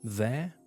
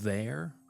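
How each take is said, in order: First: The final R sound is dropped. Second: The final R sound is clearly pronounced. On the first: "it's not really there, right?" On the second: "instead of"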